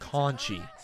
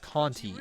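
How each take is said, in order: First: The second syllable starts with a ch sound. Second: The second syllable starts with a t sound. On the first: The speaker calls it right. "it's Conchi" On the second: The speaker calls it wrong. "her last name's not pronounced Conti"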